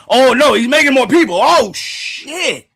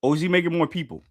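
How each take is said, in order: First: Very high, loud cry of alarm; panicked outburst. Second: Said in the usual way. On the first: Real, not acted. Streamer realises he's making more people, shrieking in alarm. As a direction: shriek it, stretching the final curse. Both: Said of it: "Why I say it like that?".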